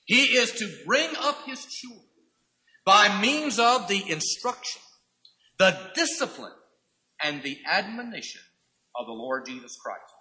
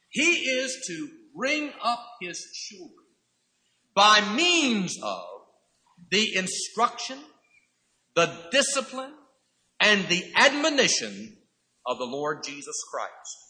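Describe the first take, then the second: First: Repeated steadily, each phrase stressed; restated with emphasis. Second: Each phrase weighed, "means" drawn out slow; slow emphatic statement. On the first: Preacher repeating the duty to fathers, firm and measured. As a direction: say it again firmly for the congregation. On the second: Preacher spelling out the duty to fathers, slow and weighty. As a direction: lay out the list slowly, stressing each item. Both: Shown as a demonstration. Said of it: "Now let me state it once again".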